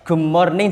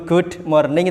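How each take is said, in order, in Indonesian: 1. Bunyi d langsung menyatu dengan bunyi m. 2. Bunyi d dilepas dengan hentian sebelum morning. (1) "langsung masuk M nggak masalah" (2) "mandek dulu good morning itu kan kaku"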